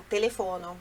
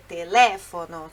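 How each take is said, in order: First: Telefono stressed on the next-to-last syllable; wrong stress. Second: Telefono with a strong LE, teLEfono; stress on LE. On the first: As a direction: misread telefono the Portuguese way, teleFOno. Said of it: "pode pensar, telefono, mas não é". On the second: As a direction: hit the second syllable of telefono hard. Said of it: "a sílaba tônica é no le". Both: Shown as a demonstration.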